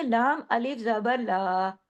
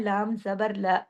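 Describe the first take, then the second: First: ला drawn out into a long aa; ला with long alif. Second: ला cut short, no alif stretch. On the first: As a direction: stretch the vowel at the end of ला. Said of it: "ला को सुनाते वक्त आप लोग अलिफ लगा देती". (अलिफ के साथ लंबा खींचा हुआ ला) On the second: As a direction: keep the vowel of ला brief. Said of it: "एक होता है लाम जबर ला". (बिना अलिफ का छोटा ला) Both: Shown as a demonstration.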